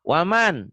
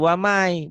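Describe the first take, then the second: First: The final n sound is clearly pronounced. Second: The n disappears, merging into a y sound.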